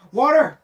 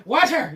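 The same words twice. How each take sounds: First: Said in the usual way. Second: "Water!" with an Irish "wather"; louder mock Irish "Water!"; mock Irish accent. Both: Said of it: "You went Irish".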